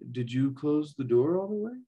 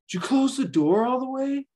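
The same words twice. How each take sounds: First: The question sounds calm and gentle. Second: The question sounds harsh and attacking. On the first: The speaker is simply asking without hostility. The speaker calls it right. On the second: The speaker is hostile toward the listener. The speaker calls it wrong.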